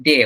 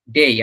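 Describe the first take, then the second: First: "ডে" with a plain e and no glide; wrong short vowel. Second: "ডেই" with e gliding into i; correct diphthong. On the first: Teacher shows what people usually say, wrong short vowel in "ডে". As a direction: stop "ডে" short of the final i. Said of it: "ওটা ডে না". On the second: Teacher corrects the vowel, correct diphthong in "ডেই". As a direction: say "ডেই" as day with a full final glide. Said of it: "তারপরে এটা হচ্ছে ডেই". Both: Shown as a demonstration.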